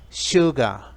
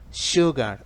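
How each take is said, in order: The two takes are said the same way.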